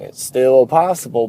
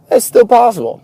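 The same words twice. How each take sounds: First: Said in the usual way. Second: "still" punched much higher and louder; stress on still. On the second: Real, not acted. Insisting to viewers it can still happen, "still" punched high. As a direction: hit the word "still" hard, insisting. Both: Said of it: "Don't get me wrong".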